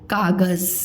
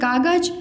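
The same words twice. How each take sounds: First: The last consonant is a buzzing 'z' sound. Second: The last consonant is a plain 'j' sound. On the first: "ज के नीचे बिंदी लग गया तो" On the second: "ऐसे पढ़ते कागज"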